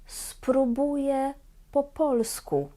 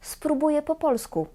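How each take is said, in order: First: The phrase is spoken slowly. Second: The phrase is spoken quickly. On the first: "Będę mówić każdą frazę dwa razy wolno"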